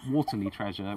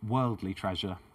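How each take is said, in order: First: The first word sounds like waterly. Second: The first word sounds like worldly. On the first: The speaker calls it wrong. "she actually said waterly" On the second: The speaker calls it right. "So worldly"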